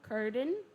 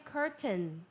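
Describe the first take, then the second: First: The middle T is swallowed, not clearly released. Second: The middle T is clearly pronounced. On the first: "para quem é americano" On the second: "Com o T seria curtain"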